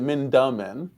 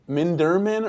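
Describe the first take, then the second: First: The middle syllable has no R sound. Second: The middle syllable has an R sound. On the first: The speaker calls it right. "There is no R" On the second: The speaker calls it wrong. "I always keep calling him Minderman"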